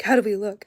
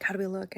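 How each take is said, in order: First: Loud, eager how do we look; proud kids asking. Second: Said in the usual way. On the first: Retold or imitated. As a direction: kids showing off their costume, loud. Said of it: "They're like".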